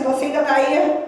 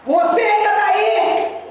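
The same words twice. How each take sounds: First: Said in the usual way. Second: High, slow commanding shout; shouted challenge. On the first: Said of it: "falei assim". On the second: Retold or imitated. Pastor confronting the demon at the door, shouted challenge. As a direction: call it out high, stretching the words.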